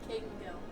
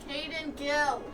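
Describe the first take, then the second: First: The name is said quietly. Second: The name is said loudly.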